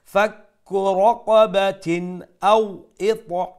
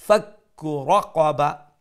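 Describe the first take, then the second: First: Slow, louder chant with clear "n" in রাকাবাতিন; continue রাকাবাতিন into আও, n fully sounded; izhar recitation. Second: Slow ফাক্কু রাকাবা closed on "ah"; stopping recitation. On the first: Teacher showing izhar when continuing, slow clear n. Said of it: "এই তানবিন আমরা ইজহার করবো". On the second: Teacher showing the stop, slow reading ending in ha. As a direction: recite রাকাবা with the final ta turned to ha. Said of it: "আর এখানে আমরা যখন stop করব". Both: Shown as a demonstration.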